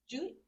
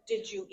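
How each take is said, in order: First: The words are squashed into one short word. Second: Each of the three words is clearly separated. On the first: The speaker calls it wrong. "sometimes people say Jeep" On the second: The speaker calls it right. "like enunciate your words"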